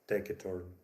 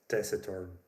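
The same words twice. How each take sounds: First: The c is said as a hard k sound. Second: The c is said as a soft s sound. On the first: This is the pronunciation expected from Latin. "I was convinced that uh, saint's main adjective is pronounced like taciturn" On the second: This is how English speakers actually say it. "English speakers pronounce it as taciturn"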